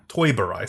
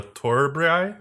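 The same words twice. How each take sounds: First: Said in the usual way. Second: Unsure attempt at "Toiburai", rising at the end; "Toiburai" fumbled with a questioning lift; stumbled pronunciation. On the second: Real, not acted. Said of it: "how do you, uh, Toiburai, sorry".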